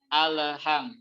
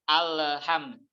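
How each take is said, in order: No difference in how they are said.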